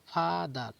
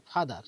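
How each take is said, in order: First: "father" broken as ফা, দার with a held first syllable; two-beat syllable split. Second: Said in the usual way. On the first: Shown as a demonstration. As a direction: say "father" in two separate beats, ফা then দার. ("Father" দুবার থেমে, ফা-দার করে ভেঙে বলা) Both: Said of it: "দেখো, দুবার থামতে হচ্ছে".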